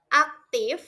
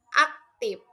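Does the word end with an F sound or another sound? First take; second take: F sound; another sound. First: It ends with a breathy F, lip on teeth. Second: It ends with a sound other than F. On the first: The speaker calls it right. "Contoh yang benar" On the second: The speaker calls it wrong.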